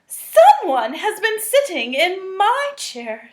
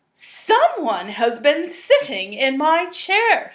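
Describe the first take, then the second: First: Higher, louder, indignant mama; Mama Bear voice. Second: Slow, a bit louder, a hint of a gruff papa; lightly voiced Papa Bear. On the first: Acted. Reading to children, mama bear finds her chair used, higher. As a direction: lift it up like a startled mother bear. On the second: Reading to children, the papa bear finds his chair used, slow. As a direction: read slowly as the big bear.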